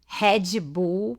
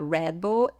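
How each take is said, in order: First: It is said with a Brazilian Portuguese accent. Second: It is said with an American English accent.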